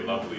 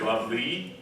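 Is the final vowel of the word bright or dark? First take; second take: dark; bright. First: The final vowel is darker and more central. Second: The final vowel is a bright, ordinary ee. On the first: The speaker calls it right. "we say it darker than normal" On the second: The speaker calls it wrong. "We don't say lovely"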